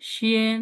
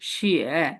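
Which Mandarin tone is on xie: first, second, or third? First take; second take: first; third. First: The syllable is said with the first tone. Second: The syllable is said with the third tone. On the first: "প্রথমটা কি হবে?" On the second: "third tone"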